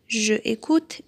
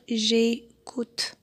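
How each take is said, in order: First: The vowel of je is kept before the verb. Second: The vowel of je is dropped before the verb. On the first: The speaker calls it wrong. "on va pas dire je écoute" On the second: The speaker calls it right. "mais plutôt on va dire j'écoute"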